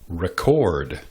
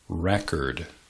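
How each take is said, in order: First: The stress is on the second syllable. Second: The stress is on the first syllable. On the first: It is the verb, to register or record. "But there is a verb also" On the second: It is the noun, a document or disc. "the noun record"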